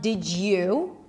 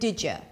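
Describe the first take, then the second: First: The word you keeps its full oo vowel. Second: The word you is reduced to a schwa. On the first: The speaker calls it wrong. "So it's not did you" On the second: The speaker calls it right. "function words, when they're not stressed, are reduced to a schwa"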